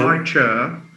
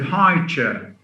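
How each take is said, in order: First: The stress falls on the word chair. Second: The stress falls on the word high. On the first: A chair that is high. "the first is a modifier plus noun" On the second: A chair for a baby. "in B, it's a compound"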